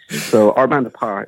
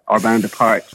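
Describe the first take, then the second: First: The final T of the last word is silent. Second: The final T of the last word is pronounced. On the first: This is the original French way. "is correct pronunciation" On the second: This is the everyday American way. "we're all going to call it"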